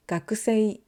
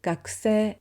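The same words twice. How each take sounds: First: "gakusei" with a voiced u and an e-i glide; the careful spelling version; spelled-out gakusei. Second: "gakusei" said as gak-seh, u dropped, long e; natural gakusei. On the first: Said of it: "instead of saying". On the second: Teacher showing students the natural way, u dropped. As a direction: clip the u, stretch the e. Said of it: "we say". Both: Shown as a demonstration.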